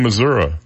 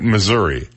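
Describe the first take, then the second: First: The word ends with a clipped final syllable. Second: The word ends with a full final syllable.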